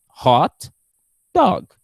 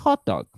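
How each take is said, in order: First: The stress falls on the word dog. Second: The stress falls on the word hot. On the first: A dog that is attractive. "this dog is kind of beautiful" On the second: A sausage in a bun. "completely different from a hot dog"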